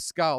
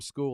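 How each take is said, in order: First: The vowel is short, like in dull. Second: The vowel is long, like in cool. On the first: "That's as uh, the Australian accent" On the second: "I can't call him School"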